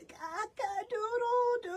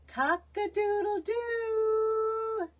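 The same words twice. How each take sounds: First: Much higher, thin little croaked cock-a-doodle-doo; weak crow. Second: High, slow drawn-out crow; long falling cock-a-doodle-doo; rooster crow demo. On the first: Acted. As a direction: try to crow but it barely comes out. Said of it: "was very soft". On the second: Shown as a demonstration. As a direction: crow it out like a proud old rooster. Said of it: "release air while crowing".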